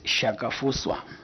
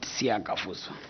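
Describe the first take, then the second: First: The name begins with a single 'sh' sound. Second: The name begins with a separate 'see-ah' sound. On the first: The speaker calls it right. "the correct pronunciation is Shakafuswa" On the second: The speaker calls it wrong. "not Siakafuswa"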